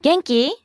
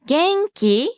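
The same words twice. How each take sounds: First: 元気 at natural speed, rising at the end; rising question. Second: 元気 drawn out, higher, rising at the end; slow rising question. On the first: Teacher models the informal question at natural pace, rising. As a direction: say 元気 briskly as a question, lifting き. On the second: Teacher breaks down the informal question, slow and rising. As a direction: say 元気 slowly in two beats, lifting き. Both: Shown as a demonstration.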